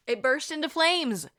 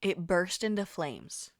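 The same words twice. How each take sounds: First: Higher, louder shocked repeat; dramatic exclamation. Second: Said in the usual way. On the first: Shown as a demonstration. Storyteller repeats the toy catching fire, loud and incredulous. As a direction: punch it up as a big reveal.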